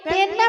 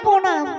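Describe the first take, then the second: First: It starts with 'pen', without the r sound. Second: It starts with 'pro', with the r sound. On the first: The speaker calls it wrong. "এই পেন নাম না" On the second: The speaker calls it right. "বলো প্রণাম"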